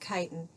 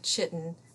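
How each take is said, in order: First: It is said with its usual spoken form. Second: It is said the way it is spelled. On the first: The speaker calls it right. "but we pronounce it chitin" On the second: The speaker calls it wrong. "looks like chitin"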